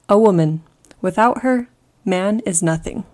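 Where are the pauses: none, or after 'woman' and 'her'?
after woman, her. There are pauses after 'woman' and after 'her'.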